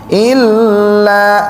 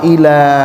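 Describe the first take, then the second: First: The l sound is doubled and held. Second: The l sound is single and short. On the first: The speaker calls it right. "harus dihentak ya" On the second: The speaker calls it wrong. "nanti beda kalau ila"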